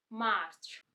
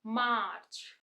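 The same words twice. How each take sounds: The two takes are said the same way.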